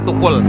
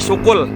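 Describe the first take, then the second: First: The word begins with a t sound. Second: The word begins with a sh sound. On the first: The speaker is completely worn out. "Terakhir bilangnya tukul" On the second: The speaker is already tired. "kalau udah capek syukul"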